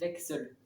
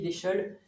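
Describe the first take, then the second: First: The middle sound is said like ks. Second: The middle sound is said like sh. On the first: This is how it is actually pronounced. The speaker calls it right. "ça se prononcerait" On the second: This is how it is written. The speaker calls it wrong. "ça s'écrit"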